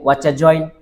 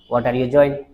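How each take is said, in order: First: The words are reduced and run together. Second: Every word is said fully and separately.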